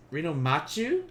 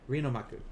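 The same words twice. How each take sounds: First: MACHU said "ma-choo", rising; mistaken reading. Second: MAKU said "ma-koo", falling; corrected reading. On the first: Checking a viewer's name, "machu" with a questioning ch. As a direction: Reno machu with a ch sound, as a question. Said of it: "Oh, maku". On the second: Confirming a viewer's name, "maku" with a k, falling. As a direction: Reno maku with a k sound, settled. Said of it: "Oh, maku. Okay". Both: Shown as a demonstration.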